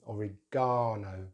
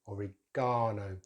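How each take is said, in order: First: The stress is on the third syllable. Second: The stress is on the third syllable.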